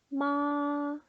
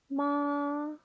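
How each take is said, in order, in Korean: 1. 음이 처음부터 끝까지 높고 평평하게 유지돼요. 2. 음이 처음부터 끝까지 높고 평평하게 유지돼요.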